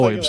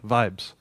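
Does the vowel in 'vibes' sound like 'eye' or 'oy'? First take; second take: oy; eye. First: The vowel sounds like 'oy'. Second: The vowel sounds like 'eye'. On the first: The speaker calls it wrong. "Not voibes" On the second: The speaker calls it right.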